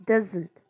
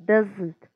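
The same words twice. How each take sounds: No difference in how they are said.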